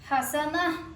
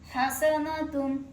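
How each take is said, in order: First: The word ends with a soft h sound. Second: The word ends with a full tun sound. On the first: The reader stops on this word. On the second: The reading continues without stopping.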